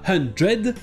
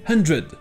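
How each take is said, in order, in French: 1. La dernière syllabe a une voyelle pleine. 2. La dernière syllabe a une voyelle réduite. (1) "Ce n'est pas hundred" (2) "mais hundred"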